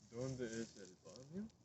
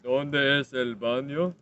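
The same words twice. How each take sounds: First: It is said fairly softly. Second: It is said more loudly.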